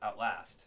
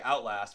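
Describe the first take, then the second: First: The stress is on the second syllable. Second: The stress is on the first syllable. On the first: The speaker calls it right. "emphasis on the on the last" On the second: The speaker calls it wrong. "most people say Outlast, but that's not really right"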